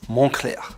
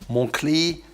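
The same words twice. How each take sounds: First: The name is said with a French pronunciation. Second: The name is said with an anglicized pronunciation. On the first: The speaker calls it right. "it's Montclair" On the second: The speaker calls it wrong. "So it's not Montclair"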